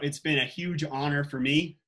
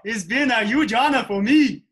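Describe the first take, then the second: First: It is said in a normal natural voice. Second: It is said in a put-on character voice. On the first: "First, I'll do it regular" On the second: "then we'll do it with my Bernardo voice"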